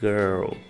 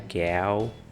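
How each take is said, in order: First: The vowel is an 'er' sound with final L. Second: The vowel is an open 'a' sound. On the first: The speaker calls it right. "O I R geralmente vai ter um som de E" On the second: The speaker calls it wrong. "não é gal"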